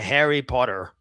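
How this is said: It is said in an American accent. "Very American"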